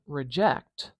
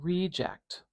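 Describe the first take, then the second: First: The stress is on the second syllable. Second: The stress is on the first syllable. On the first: It is a verb. "I'm not saying reject" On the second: It is a noun. "We've got a lot of length and power on this E vowel here"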